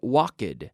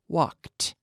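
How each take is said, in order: First: The ending adds an extra syllable, two syllables. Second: The ending is a T sound, one syllable. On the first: The speaker calls it wrong. "We don't say walked. There's no extra syllable" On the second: The speaker calls it right. "in the past, it sounds like a T"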